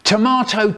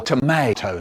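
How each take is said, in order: First: "Tomato" with a long ah in the middle; British tomato. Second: "tomato" with an ay in the middle; American tomato. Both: Shown as a demonstration. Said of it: "Which is it?".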